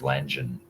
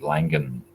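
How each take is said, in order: First: The G is pronounced as a soft sound. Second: The G is pronounced as a hard sound. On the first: The speaker calls it wrong. "a soft G is Langen" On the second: The speaker calls it right. "do I have to pronounce the hard G? Is it Langan?"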